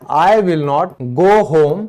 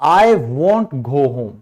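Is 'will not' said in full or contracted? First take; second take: full; contracted. First: Will not is said as two full words. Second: Will not is contracted into one syllable, won't. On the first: The speaker calls it wrong. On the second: The speaker calls it right.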